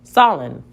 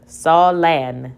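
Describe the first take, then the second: First: The second vowel is reduced to a schwa. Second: The second vowel is a full short vowel. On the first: The speaker calls it right. "Let's try it with the schwa sound" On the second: The speaker calls it wrong. "Let's try with the short vowel"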